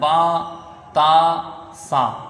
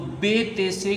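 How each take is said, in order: First: Each letter name ends in an 'a' vowel. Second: Each letter name ends in an 'e' vowel. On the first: The speaker calls it right. "अरबी में जो पढ़ा जाता है" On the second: The speaker calls it wrong. "Urdu तलफ़ुज़ है"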